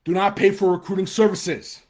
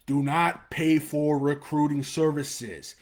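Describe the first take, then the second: First: Louder and higher, hitting pay; real annoyance breaking through; angry shout. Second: Slow, every word hit; deliberate, stern repeat; emphatic warning. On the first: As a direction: bark the warning out. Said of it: "it pisses me off". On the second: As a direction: lean on each word. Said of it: "one thing I'm passionate about". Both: Real, not acted.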